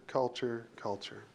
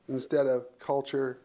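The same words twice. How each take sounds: First: Culture repeated, each time much softer and lower; fading repetition. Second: Instead of culture, slow with a firm hit on culture; stress on culture. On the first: Speaker echoing culture as the point sinks in. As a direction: let culture trail away into near silence. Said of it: "culture, culture, culture". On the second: Speaker stressing culture over role and title. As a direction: lean on culture as the key word. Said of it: "instead of culture, culture, culture". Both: Shown as a demonstration.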